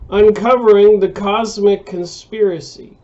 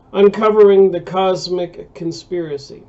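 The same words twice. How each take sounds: The two takes are said the same way.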